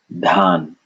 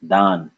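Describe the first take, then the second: First: Dhan with long a and a puff of air; aspirated dh. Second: Dan with long a and airless d; unaspirated d. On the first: Teacher naming the rice plant, aspirated dh in Dhan. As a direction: breathe through the dh of Dhan. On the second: Teacher giving the word for donation, unaspirated d in Dan. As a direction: say Dan with no puff after the d. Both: Shown as a demonstration. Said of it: "the power of aspiration".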